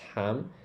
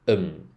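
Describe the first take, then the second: First: It is a full syllable with an h. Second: It is a quick reduced um sound. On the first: The speaker calls it wrong. "ham is not pronounced ham" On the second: The speaker calls it right. "like a quick um sound"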